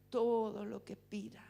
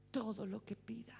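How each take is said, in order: First: Said in the usual way. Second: Hushed whispered echo. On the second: Shown as a demonstration. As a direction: breathe it out as a secret. Repeats promise, then whispers it.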